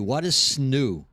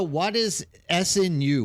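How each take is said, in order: First: "snu" said as one word rhyming with new, slowly; slow "snu" sounded out as one word; read as a word. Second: "S N U" said as three separate letters; "S N U" spelled out, letters apart. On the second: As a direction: read "S N U" letter by letter. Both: Shown as a demonstration.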